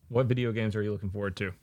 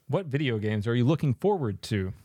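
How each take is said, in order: First: It is asked in a casual, ordinary tone. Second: It is asked in a forceful, commanding tone.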